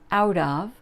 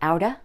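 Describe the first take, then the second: First: Both words are said fully and separately. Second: The words run together into one reduced form.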